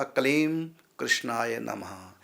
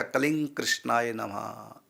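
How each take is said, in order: First: Kaleem closed on m, slight break, then कृष्णाय नमः; comma after Kaleem. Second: Kalinga with ng flowing into कृष्णाय नमः; both words joined. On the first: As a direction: pause briefly between Kaleem and कृष्णाय. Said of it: "थोड़ा सा coma दे करके". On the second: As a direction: run Kalinga into कृष्णाय with no break. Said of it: "दोनों को इकट्ठे जोड़ देंगे". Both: Shown as a demonstration.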